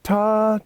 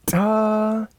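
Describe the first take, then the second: First: Said in the usual way. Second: "ta" with a big, hard T on a high held tone; accented T. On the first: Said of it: "And it's from". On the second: Shown as a demonstration. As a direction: hit the T of "ta" hard. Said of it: "That big T is all I".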